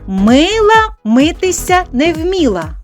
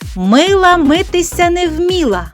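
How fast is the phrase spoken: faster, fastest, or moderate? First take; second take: faster; fastest. First: The phrase is spoken a little faster. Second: The phrase is spoken at the fastest pace. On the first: "Тепер трішечки швидше" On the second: "А тепер ще швидше"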